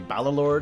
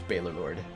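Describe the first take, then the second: First: The first syllable does not sound like 'bale'. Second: The first syllable sounds like 'bale'. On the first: This is how other people say the name. "I've heard others call me" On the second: This is how the owner of the name says it. "the way I pronounce it is"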